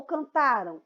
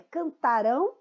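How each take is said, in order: First: Cantaram with weight on the middle TA, falling after it; cantaram, stressed next-to-last with a weak ending. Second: Cantarão with the weight on RÃO; cantarão, ending held and stressed; stress on the final syllable. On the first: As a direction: lean on TA in cantaram. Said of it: "a sílaba mais forte aqui em cantaram é o tá". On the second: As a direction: offer cantarão as an option, leaning on its last syllable. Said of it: "a pronúncia correta aqui". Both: Shown as a demonstration.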